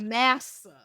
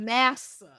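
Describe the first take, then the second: First: The T sound in the middle is dropped. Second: The same.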